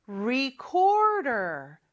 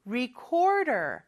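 First: "recorder" drawn out very slowly with careful English R's; careful R sounds. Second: Said in the usual way. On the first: Shown as a demonstration. Teacher warning pupils about the R in recorder, slow careful demo. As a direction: stretch "recorder", showing each R clearly. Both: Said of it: "R 발음을 주의해야 되겠죠".

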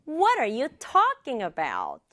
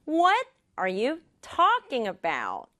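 First: A little quicker, still measured; slightly faster. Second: Slow, with What and talking emphasized; slow practice pace. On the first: Teacher has students repeat, slightly faster. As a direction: join the words, keeping talking emphasized. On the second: Teacher leads students in repeating, slowly and deliberately. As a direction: space out the words deliberately. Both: Shown as a demonstration. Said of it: "조금만 빠르게".

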